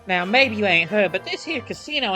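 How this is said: It is read in a put-on Southern accent.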